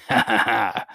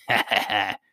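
First: Fuller acted "ha, ha, ha"; hearty royal laughter, mildly acted; louder laugh. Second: Mild triumphant "ha, ha, ha"; understated gloating cackle from a queen; triumphant laugh. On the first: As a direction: let the queen's laugh ring out a little. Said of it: "laughed the queen louder than before". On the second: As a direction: laugh in triumph, without much volume. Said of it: "shouted the queen triumphantly". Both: A narrator's reading.

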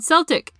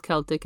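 First: "Celtic" with an S sound at the start; soft C in Celtic. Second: "Celtic" with a K sound at the start; hard C in Celtic. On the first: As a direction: say "Celtic" as SEL-tik, Boston style. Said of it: "it's called Celtic". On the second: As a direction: say "Celtic" as KEL-tik. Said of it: "it's not called Celtic". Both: Shown as a demonstration.

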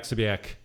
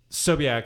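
First: "Sobiak" as suh-bee-ak, tossed off; second surname version. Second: "Sobiak" as so-bee-ak, a bit firmer; first surname version. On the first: Mom comparing two versions, Sobiak with reduced first syllable. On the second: Mom comparing two versions, Sobiak with full first syllable. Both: Retold or imitated. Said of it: "What's the difference?".

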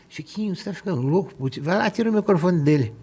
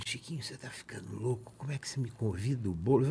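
First: Higher-pitched mock alarm; retold agitated urging. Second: Very soft, confidential aside; retold hushed reproach. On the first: Guest urges Chiquinho to take the microphone away, agitated. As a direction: urge him to act, as retold. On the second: André takes Chiquinho aside over inviting Boulos, hushed reproach. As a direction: reproach him under your breath, as retold.

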